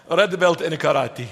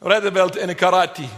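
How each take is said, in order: Both takes have the same delivery.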